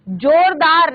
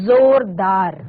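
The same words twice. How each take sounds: First: जोरदार with a hard j; wrong j sound. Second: जोरदार with ज as z, slowly; nukta z sound. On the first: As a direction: say जोरदार as "jordaar". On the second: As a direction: say जोरदार as "zordaar", drawn out. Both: Shown as a demonstration. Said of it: "जोरदार नहीं".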